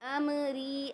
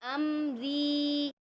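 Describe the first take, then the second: First: It is said fast with a short final 'ri'. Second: It is said slowly with a stretched final 'ri'. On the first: The speaker calls it wrong. "ऐसे नहीं" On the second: The speaker calls it right. "बल्कि अमरी, और री को खींचना है"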